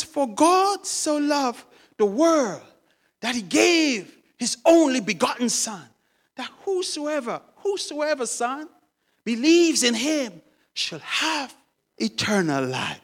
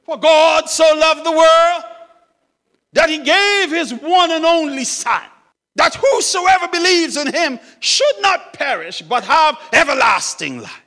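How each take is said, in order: First: Earnest explaining. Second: Loud, high proclamation; exultant reading. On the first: Old man explaining John three sixteen to son, earnestly. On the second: Old man finding John three sixteen, reading it out exultantly. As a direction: proclaim the verse at full voice. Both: Acted.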